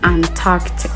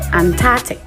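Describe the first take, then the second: First: The k sound after the r is pronounced. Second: The k sound after the r is dropped. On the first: The speaker calls it right. "It's actually Antarctic. ... keep the C sound" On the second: The speaker calls it wrong. "usually people pronounce it Antarctic. ... that's wrong"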